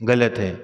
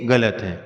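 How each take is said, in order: No difference in how they are said.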